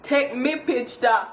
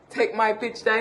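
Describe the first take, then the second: First: "Take me picture" slow in Jamaican Patois, "me" not "my". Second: Said in the usual way. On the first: Shown as a demonstration. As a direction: say "Take me picture" the yardie way, slowly. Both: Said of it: "take my picture is take me picture".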